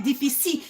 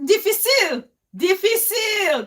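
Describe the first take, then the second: First: "difficile" quoted as dee-fee-see, no final L; "difficile" cut off after the last vowel, L left out; "difficile" missing its L. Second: "difficile" called out high, ending on a clear L; "difficile" pronounced triumphantly as dee-fee-seel; "difficile" with final L. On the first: Retold or imitated. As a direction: mimic the mistake, dropping the L from "difficile". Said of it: "where is your L?". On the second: Real, not acted. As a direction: say "difficile" higher and louder, sounding the final L. Recalls the French word triumphantly.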